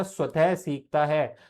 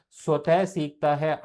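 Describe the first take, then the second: First: Said in the usual way. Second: स्वतः drawn out and weighted, the whole phrase slowed; stress on स्वतः. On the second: Shown as a demonstration. Teacher repeats स्वतः for students, slow and stressed. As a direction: lean on स्वतः and slow down to drive it home.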